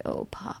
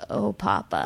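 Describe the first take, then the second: First: Breathy whispered "Oh, Papa." almost no voice; overcome, whispered "Oh, Papa.". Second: Softer, grieving little "Oh, Papa."; a boy's hushed lament, "Oh, Papa."; mild imitation of a sad child. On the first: Retold or imitated. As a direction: whisper "Oh, Papa." in awe at first sight. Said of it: "I was just like". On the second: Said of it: "during these really sad moments".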